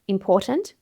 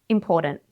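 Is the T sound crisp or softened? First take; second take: crisp; softened. First: The T is a crisp, fully released T. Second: The T is softened, not a crisp T.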